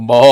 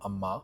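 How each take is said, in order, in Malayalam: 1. ഈ വാക്ക് അതിശയോക്തിപരമായ രീതിയിൽ വിളിച്ചിരിക്കുന്നു. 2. ഈ വാക്ക് വ്യക്തമായും സാധാരണമായും വിളിച്ചിരിക്കുന്നു. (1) "കുറച്ചും കൂടി സിനിമയിൽ തമിഴിലൊക്കെ ആകുമ്പോൾ" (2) "നോർമലി അമ്മേനെ വിളിക്കുമ്പോൾ അമ്മ ഇങ്ങനെ വിളിക്കും"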